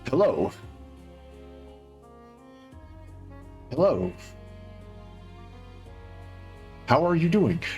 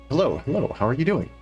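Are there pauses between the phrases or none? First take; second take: pauses; none. First: Each phrase is separated by a pause. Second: The phrases run together without pauses.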